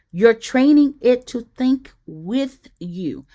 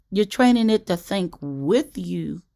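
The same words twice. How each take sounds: First: "training" said slowly, leaned on, louder; stress on training. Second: "training" lightly stressed in a calm even repeat. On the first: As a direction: press hard on "training", slow and firm. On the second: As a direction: say it again calmly, a light lean on "training". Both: Shown as a demonstration. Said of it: "Let me emphasize that again".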